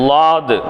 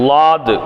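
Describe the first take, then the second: The two takes are said the same way.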